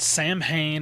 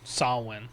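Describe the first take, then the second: First: The middle consonants are pronounced as M and H. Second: The middle consonant is a W sound. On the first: The speaker calls it wrong. "It's not Samhain or anything like that" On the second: The speaker calls it right. "the M H in Samhain in Irish Gaelic makes more of a W sound"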